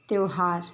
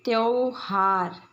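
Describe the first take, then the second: First: त्योहार said briskly as "त्योहार"; त्योहार the standard way; correct pronunciation. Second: त्योहार drawn out slowly, the wrong way; त्योहार stretched and misspoken; wrong pronunciation, slow. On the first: (त्योहार का शुद्ध उच्चारण) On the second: (त्योहार का अशुद्ध, धीमा उच्चारण) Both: Shown as a demonstration. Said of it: "इन शब्दों का उच्चारण करते हैं".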